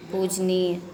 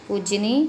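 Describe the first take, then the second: First: पूजनीय with final ya sounded; correct form. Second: पूजनी ending on plain nee; faulty form. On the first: Teacher giving the correct form, full पूजनीय. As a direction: finish पूजनीय on nee-ya. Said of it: "ये सारे शब्द शुद्ध हैं". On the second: Teacher showing the error, shortened पूजनी. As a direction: drop the final ya from पूजनी. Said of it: "अन्य अशुद्धियाँ देखिए". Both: Shown as a demonstration.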